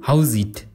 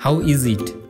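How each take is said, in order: First: The words are shortened and run together. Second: Every word is said fully and separately.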